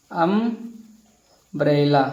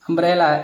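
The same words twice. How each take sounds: First: अम्ब्रेला drawn out very slowly, every sound held; teacher slowly sounding out अम्ब्रेला; slow pronunciation demo. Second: Said in the usual way. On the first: Shown as a demonstration. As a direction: stretch अम्ब्रेला out slowly so the first sound अ is clear. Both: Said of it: "इस नियम के अनुसार हिंदी में करेंगे ना".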